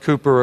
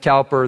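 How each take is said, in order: First: The first vowel sounds like 'coo'. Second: The first vowel sounds like 'cow'. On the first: This is how people across the ocean say it. "they pronounce it Cooper across the ocean" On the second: This is how the speaker's own community says it. "we pronounce it Cowper"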